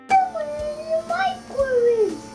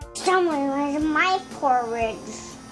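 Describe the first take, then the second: First: It is said in a medium voice. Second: It is said in a deep, gruff voice.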